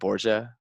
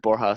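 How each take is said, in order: First: The name is said like Borgia. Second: The name is said as Borja. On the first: The speaker calls it wrong. "Sometimes people will pronounce it like Borgia" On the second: The speaker calls it right. "my last name is Borja"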